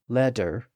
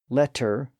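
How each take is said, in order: First: The middle consonant is a D sound. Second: The middle consonant is a clear T sound. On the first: The middle stage of the sound. "to a D sound" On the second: The earliest stage of the sound. "from an initial T sound"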